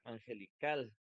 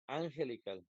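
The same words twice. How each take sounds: First: The stress is on the last syllable. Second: The stress is on the first syllable. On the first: The speaker calls it right. "si fuera la última, diría angelical" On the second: The speaker calls it wrong. "no puede ser la primera porque diría angelical"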